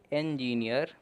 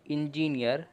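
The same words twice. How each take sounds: First: इंजीनियर begun with an 'e' sound, like "en"; right pronunciation. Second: इंजीनियर said with an 'i' sound at the start, as many people say it; the common wrong way: इंजीनियर with 'i'; wrong pronunciation. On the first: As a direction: start इंजीनियर with 'e', not 'i'. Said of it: "उसे आप ए पढ़ोगे". (सही उच्चारण: इंजीनियर, शुरू में 'ए') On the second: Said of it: "पर इंजीनियर नहीं". (गलत उच्चारण: इंजीनियर, शुरू में 'इ') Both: Shown as a demonstration.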